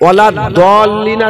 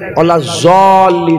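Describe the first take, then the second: First: The key consonant sounds like a D. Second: The key consonant sounds like a Z. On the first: The speaker calls it right. "একটা নুরানি কায়দাতে ওয়ালা দলিন আছে" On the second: The speaker calls it wrong. "আর একটা নুরানি কায়দাতে ওয়ালা জলিন আছে"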